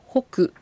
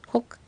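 First: The final ku is said with a full vowel. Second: The final k is said without a following vowel. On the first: The speaker calls it wrong. "ホクではなく" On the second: The speaker calls it right. "小さいクの発音です"

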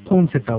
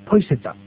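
First: The first word ends with an n sound. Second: The first word ends with a y sound. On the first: "ポンはローマ字で書くと、PON ですね" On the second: "N がY に変わる音韻変化があります"

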